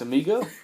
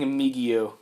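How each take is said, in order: First: The word ends in a plain 'go' sound. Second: An extra 'ee' sound comes before the final 'o'. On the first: The speaker calls it right. "it's amigo" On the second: The speaker calls it wrong. "I've been saying amigo wrong"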